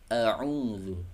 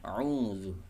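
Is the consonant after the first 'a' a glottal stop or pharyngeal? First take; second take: pharyngeal; pharyngeal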